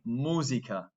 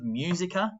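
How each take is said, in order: First: Every vowel is pronounced fully and clearly. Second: Some vowels are weakened and reduced. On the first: The speaker calls it right. "Make sure with the vowels in the subject, you're pronouncing them" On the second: The speaker calls it wrong. "instead of musica"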